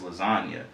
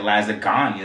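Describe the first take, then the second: First: The g sound is left silent. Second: The g sound is clearly pronounced. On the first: The speaker calls it right. "it's just" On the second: The speaker calls it wrong. "You don't say"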